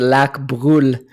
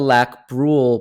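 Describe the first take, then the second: First: The name is said with a full French accent. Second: The name is said with a weak French accent. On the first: "if I was to put it on full French accent" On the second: "you've got to get your French accent a little bit better there"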